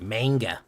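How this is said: The word is said with a Midwestern accent. "I say manga. Like a Midwesterner"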